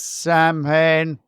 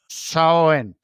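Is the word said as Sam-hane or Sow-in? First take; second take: Sam-hane; Sow-in. First: It is said as spelled, like Sam-hane. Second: It is said in the Celtic way, like Sow-in. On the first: The speaker calls it wrong. "I know it looks like it says Samhain" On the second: The speaker calls it right. "the Celtic pronunciation is Samhain"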